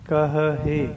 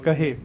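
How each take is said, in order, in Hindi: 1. यह शब्द दो अलग-अलग h ध्वनियों के साथ बोला जाता है। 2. यह शब्द एक h ध्वनि के साथ बोला जाता है। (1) "ये सही उच्चारण है" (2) "ਸੋ ਰੋਂਗ ਉਚਾਰਨ ਹੈ ਇਸ ਦਾ"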